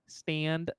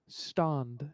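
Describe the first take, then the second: First: It is said in an American accent. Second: It is said in a British accent. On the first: "U S pronunciation goes" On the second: "the English person's like"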